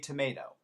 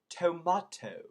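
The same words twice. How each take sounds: First: It is said with an American accent. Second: It is said with an English accent.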